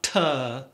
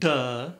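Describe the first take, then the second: First: The word begins with a hard t sound. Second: The word begins with a hard d sound. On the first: "not tuh" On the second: "Not duh"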